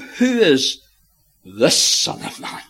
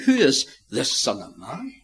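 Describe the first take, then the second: First: The stress falls on the word this. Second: The stress falls on the word who. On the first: It questions this particular Son of Man who must be lifted up. The speaker calls it right. "They're saying" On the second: It asks for the identity of the Son of Man. The speaker calls it wrong. "They're not saying"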